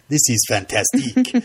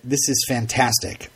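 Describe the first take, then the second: First: The last word has a heavy French pronunciation. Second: The last word has a plain English pronunciation. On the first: The speaker calls it right. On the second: The speaker calls it wrong.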